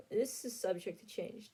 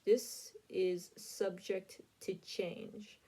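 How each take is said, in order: First: Said in the usual way. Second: "subject to change" drawn out very slowly; slow emphatic repeat. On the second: Real, not acted. Vlogger warning viewers about the predictions, slow and emphatic. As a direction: stretch out "subject to change" word by word.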